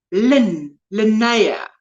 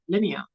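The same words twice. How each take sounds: First: Linnea as "lin-NAY-a", first trying "Lin" alone; corrected pronunciation. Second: Linnea said as "LIN-ee-a"; South African pronunciation. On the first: Host correcting a viewer's name, Linnea carefully said as "lin-NAY-a". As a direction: practise Linnea with "nay" in the middle. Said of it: "Emphasis on the". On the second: Host showing a viewer's name, Linnea said South African style as "LIN-ee-a". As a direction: say Linnea with a short first "LIN" and an "ee" in the middle. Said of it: "how we would say it in South Africa". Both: Shown as a demonstration.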